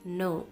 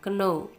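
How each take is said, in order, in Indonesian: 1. Terdengar persis seperti kata 'no'. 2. Tidak terdengar seperti kata 'no'. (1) "tapi no" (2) "bacanya jangan baca know"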